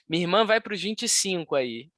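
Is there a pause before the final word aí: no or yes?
no. Aí runs on without a pause before it. The speaker calls it wrong.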